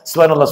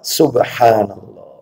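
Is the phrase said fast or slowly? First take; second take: fast; slowly. First: The phrase is said quickly and hurriedly. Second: The phrase is said slowly and deliberately. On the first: The speaker recites without reflecting on the meaning. The speaker calls it wrong. "kalau bacanya kayak sekarang yang terjadi di masyarakat" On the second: The speaker reflects on the meaning. The speaker calls it right. "Baca tasbih itu perlahan"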